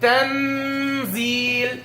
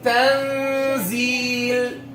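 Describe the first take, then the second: First: The n is fully pronounced against the gum. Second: The n is hidden without touching the gum. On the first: The speaker calls it wrong. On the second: The speaker calls it right.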